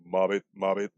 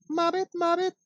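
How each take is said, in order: First: A touch lower froggy croak; the papa frog croaking his word. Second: Very high squeaky frog voice; the mama frog's high croak. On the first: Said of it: "Papa Frog goes". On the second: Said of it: "Mama Frog goes". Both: Pretend.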